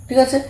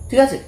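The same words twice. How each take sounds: The two takes are said the same way.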